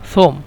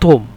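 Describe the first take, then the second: First: It begins with a soft th sound. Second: It begins with a hard t sound.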